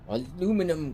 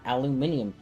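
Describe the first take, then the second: First: The word is said without the extra British syllable. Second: The word is said with the extra British syllable. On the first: The speaker calls it right. "Which is actually the proper way to say it" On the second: The speaker calls it wrong. "The Brits are wrong. It is not aluminium"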